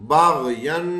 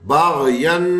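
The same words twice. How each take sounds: Both takes have the same delivery.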